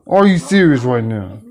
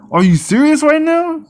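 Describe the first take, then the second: First: Said in the usual way. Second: High, stunned disbelief; are you serious, pitched way up; exasperated disbelief; incredulous. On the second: Real, not acted. Repeats earlier line higher.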